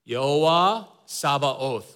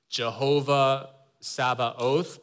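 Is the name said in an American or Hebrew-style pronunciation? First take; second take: Hebrew-style; American. First: The name has a Hebrew-style pronunciation. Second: The name has the usual American pronunciation. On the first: "I'm gonna go back to my seminary training days, okay? I'm gonna pronounce it as" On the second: "in American, I guess, in the pronunciation that we tend to use"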